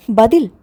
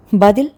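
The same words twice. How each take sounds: The two takes are said the same way.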